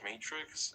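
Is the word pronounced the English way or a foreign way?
English. The word is said with English vowels. "you would say, like in English"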